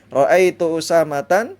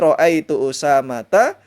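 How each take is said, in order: First: The name ends with an added n sound. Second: The name ends on a plain vowel, no n. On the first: The speaker calls it wrong. "juga tidak boleh" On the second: The speaker calls it right. "Contohnya tadi"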